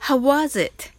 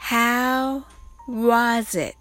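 First: It is said fast. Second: It is said slowly.

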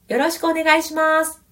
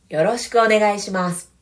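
First: The voice is light, without chest resonance. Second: The voice is deep, with added chest resonance. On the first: The speaker comes across as somewhat light. The speaker calls it wrong. "鳴らさないバージョンです。" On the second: The speaker comes across as a dependable person. The speaker calls it right. "胸の響きを足してみます。"

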